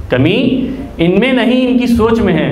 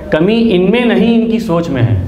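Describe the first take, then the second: No difference in how they are said.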